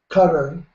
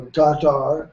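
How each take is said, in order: First: Qatar said quickly as KUT-er; Qatar as "cutter". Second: Qatar with a long, stressed TAR ending; Qatar as "kah-TAR". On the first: Host offers one way to say the country, Qatar as KUT-er. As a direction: say Qatar like "cutter", first syllable stressed. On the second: Host offers the other way to say the country, Qatar as kah-TAR. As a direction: say Qatar slowly as kah-TAR, open vowels. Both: Shown as a demonstration. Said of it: "however you wish to pronounce it".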